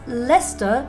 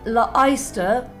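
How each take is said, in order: First: The middle letters are dropped, rhyming with Fester. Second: The middle letters are sounded as they are written. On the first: The speaker calls it wrong. "pronounced Leicester to rhyme with Uncle Fester" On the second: The speaker calls it right. "Either you start saying Le-ister"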